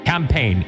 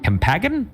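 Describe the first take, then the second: First: The word is pronounced in the ordinary way. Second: The word is jokingly garbled with extra sounds. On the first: The speaker calls it right. "I know how to pronounce that word" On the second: The speaker calls it wrong. "I'm just kidding"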